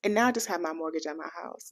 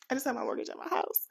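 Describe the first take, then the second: First: Said in the usual way. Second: Higher, softer restatement; soft repeat. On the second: Real, not acted. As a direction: say it over softly, pitched up. Repeats the statement more softly.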